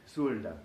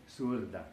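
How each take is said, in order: Both takes have the same delivery.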